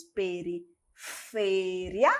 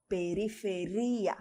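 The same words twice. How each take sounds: First: "periferia" slowly, with a long stressed FE; Spanish stress on FE. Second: "periferia" softer, stressed on RI; Portuguese stress on RI. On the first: Teacher repeats the Spanish for students, slowly stressing FE in "periferia". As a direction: stretch the FE in "periferia", glide the ending. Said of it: "em espanhol". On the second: Teacher gives students the Portuguese, softly stressing RI in "periferia". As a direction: softly lean on RI, splitting ri-a in "periferia". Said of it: "Em português". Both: Shown as a demonstration.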